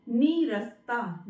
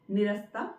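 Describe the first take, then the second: First: नीरस्ता slowly with a long "nee"; long first vowel. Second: निरस्ता quick, with short first "ni"; wrong pronunciation. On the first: Teacher models correct word, slow long-vowelled नीरस्ता. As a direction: draw out the opening नी of नीरस्ता. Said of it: "ना में लगेगी ई की मात्रा". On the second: Teacher shows the error, short-vowel निरस्ता. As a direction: clip the opening of निरस्ता, lower pitch. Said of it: "निरस्ता गलत है". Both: Shown as a demonstration.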